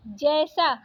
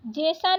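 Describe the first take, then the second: First: Said in the usual way. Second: जैसा said "je-sa", closed e; wrong vowel. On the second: Shown as a demonstration. Teacher rejecting a spelling, जैसा with plain e. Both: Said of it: "जैसा नहीं".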